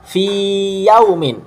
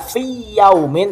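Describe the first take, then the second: First: The vowel of fi is held long before yaumin. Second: The two y sounds merge and the vowel is short. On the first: The speaker calls it right. "tapi fi yaumin" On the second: The speaker calls it wrong. "Jadi tidak dibaca fi yaumin"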